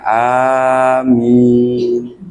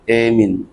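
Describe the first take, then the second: First: The first vowel is an open 'a'. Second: The first vowel leans toward 'e'.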